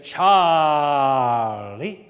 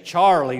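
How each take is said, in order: First: Charlie stretched out in a slow Southern drawl, louder; long Southern drawl. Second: Said in the usual way. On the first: Retold or imitated. Imitating his Alabama preacher friend's Southern drawl on Charlie. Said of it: "you talk about a long drawl". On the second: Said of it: "You think we say Charlie long".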